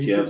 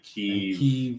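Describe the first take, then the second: First: The city name has the Russian pronunciation. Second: The city name has the Ukrainian pronunciation. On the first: "Kiev's a Russian" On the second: "Kiev is Ukrainian way of saying it"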